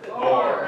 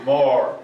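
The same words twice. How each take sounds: First: "more" breathed out in a whisper. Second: A loud falling "more"; loud craving. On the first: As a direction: let "more" fade to a whisper. Chant dies to breath. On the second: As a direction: push "more" out hard. Craving chant peaks. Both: Acted.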